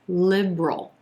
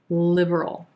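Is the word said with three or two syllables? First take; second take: two; three. First: The word is said with two syllables. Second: The word is said with three syllables.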